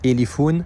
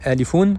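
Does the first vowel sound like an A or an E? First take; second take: E; A. First: The first vowel is an open e sound. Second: The first vowel is an open a sound. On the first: The speaker calls it wrong. "et non pas Elifoun ... Ça ressemble un peu à un E accent grave" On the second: The speaker calls it right. "On dit Alifoun"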